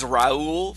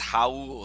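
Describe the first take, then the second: First: The name begins with an R sound. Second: The name begins with an H sound. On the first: The speaker calls it wrong. "I thought it was Raul for the longest time" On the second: The speaker calls it right. "he taught me it's Raul"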